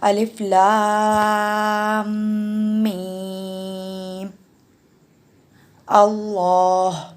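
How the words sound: It pauses for breath after alif lam mim.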